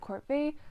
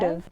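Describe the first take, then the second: First: It ends with a separate 'vee' sound. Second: It ends with a short 'tiv' sound. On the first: This is the speaker's own long-used way. "I'm of the opinion, because I've been saying it for so long" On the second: This is how most people say it. "most people say"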